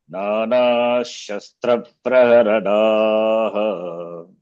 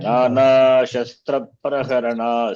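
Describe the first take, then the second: First: It ends in a pause with a final ha. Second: It runs straight on into the next word. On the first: "since I am pausing" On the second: "Suppose if I don't pause and chant the whole line"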